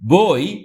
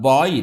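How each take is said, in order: First: The vowel starts with an 'o' sound. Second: The vowel starts with an 'a' sound. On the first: The speaker calls it right. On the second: The speaker calls it wrong. "அது பாய் இல்லை"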